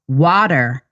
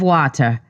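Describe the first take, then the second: First: It is said in a thick American accent. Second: It is said in a Jamaican accent. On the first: The speaker wants to hide being Jamaican. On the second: This is how the speaker would naturally say it.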